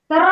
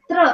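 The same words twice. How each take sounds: First: "तर" drawn apart into त and र; wrong reading shown. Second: "त्र" as one quick joined tr; correct pronunciation. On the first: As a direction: split the cluster into "तर", vowel between t and r. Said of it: "असं नाही वाचायचं". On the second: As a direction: model "त्र" short, no vowel between त and र. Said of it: "असं वाचायचं". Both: Shown as a demonstration.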